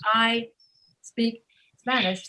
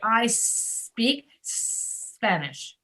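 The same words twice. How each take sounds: First: A short vowel sound comes before each S. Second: Each S is held long with no vowel before. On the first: The speaker calls it wrong. "Instead of saying I speak Spanish" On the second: The speaker calls it right. "make the S very long"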